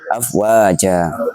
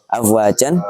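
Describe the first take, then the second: First: The word ends with a long a vowel. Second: The word ends with an n sound. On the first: The reader stops on this word. "hingga menjadi afwaja" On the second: The reading continues without stopping. "Contohnya afwajan"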